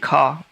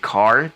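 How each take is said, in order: First: The final R sound is dropped entirely. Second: The final R sound is clearly pronounced. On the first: "Australian people just don't pronounce the letter R at the end of the word" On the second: "they don't say car"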